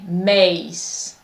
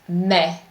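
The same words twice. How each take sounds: First: The vowel glides into another sound. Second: The vowel is steady with no glide. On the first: The speaker calls it wrong. "they want to say mais" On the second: The speaker calls it right. "there is no glide here, it's just mais"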